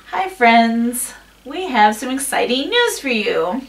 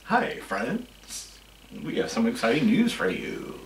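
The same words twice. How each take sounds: First: Stiff, put-on cheery greeting; puppet voice. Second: Low and soft, like someone just died; gloomy. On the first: Shown as a demonstration. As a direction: sound like a hand puppet talking. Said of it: "It was just like a puppet". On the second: Retold or imitated. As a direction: say it like a funeral announcement. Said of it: "That was like someone just died".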